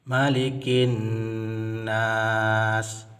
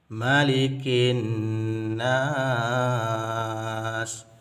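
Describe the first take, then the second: First: The last vowel is held about two counts. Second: The last vowel is held about six counts. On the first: "dua harakat" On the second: "enam harakat"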